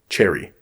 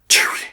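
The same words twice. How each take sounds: First: It is said in a normal voice. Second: It is said in a whisper.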